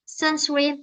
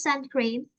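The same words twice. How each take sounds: First: Sunscreen with a muddled second syllable; mispronounced word. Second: Sun cream with a clear "kreem" ending; corrected pronunciation. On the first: Shown as a demonstration. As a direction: say "sunscreen" wrongly, its cluster blurred towards "swim". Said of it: "if I pronounce wrongly". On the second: Retold or imitated. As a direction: say "sun cream" as the corrected model, two distinct words. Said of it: "and I correct the sense".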